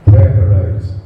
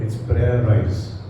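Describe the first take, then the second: First: "Prayerize" said out louder and lower; loud proclamation. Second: "It's prayerize" slow and much softer; hushed slow introduction of "prayerize"; soft, slow coinage. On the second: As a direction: savour "prayerize" quietly, drawn out. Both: Shown as a demonstration. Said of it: "I've made a word out of it".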